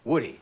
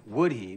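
First: The two words are jammed together, reduced. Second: The two words are said separately and fully.

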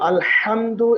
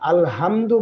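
First: The h is a strong sound from mid-throat. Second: The h is a plain, light breathy sound. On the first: The speaker calls it right. "আলহামদু এর পরিবর্তে" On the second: The speaker calls it wrong. "সেক্ষেত্রে মারাত্মক ভুল হবে"

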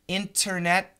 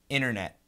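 First: The T after the N is clearly pronounced. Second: The T after the N is dropped. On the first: "Internet is perfect" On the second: "but generally we say internet"

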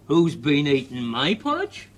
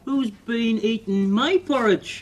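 First: The voice is medium-sized. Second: The voice is small and tiny. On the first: "Mummy Bear said in her medium-sized voice" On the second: "the baby bear said in his wee tiny voice"

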